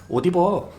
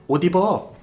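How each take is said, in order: Both takes have the same delivery.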